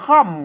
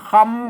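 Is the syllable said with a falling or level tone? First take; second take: falling; level. First: The syllable is said on a falling tone. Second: The syllable is said on a level mid tone.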